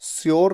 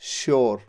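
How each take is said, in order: First: The word begins with a plain s sound. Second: The word begins with an sh sound. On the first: The speaker calls it wrong. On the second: The speaker calls it right.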